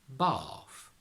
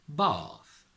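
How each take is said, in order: The two takes are said the same way.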